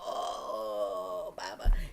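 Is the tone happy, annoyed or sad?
annoyed. It sounds mildly annoyed and exasperated.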